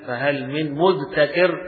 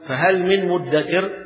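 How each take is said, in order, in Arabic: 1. تُنطق الحروف منفصلة دون إدغام. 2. تندغم الحروف في صوت واحد مشدد هو الدال. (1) "أسهل من تقول ... صعب" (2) "فأسهل على اللسان أن تقول"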